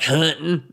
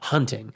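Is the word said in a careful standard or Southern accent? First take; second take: Southern; careful standard. First: It is said in a thick Southern accent. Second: It is said carefully, without the Southern accent.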